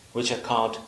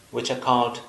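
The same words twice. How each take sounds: The two takes are said the same way.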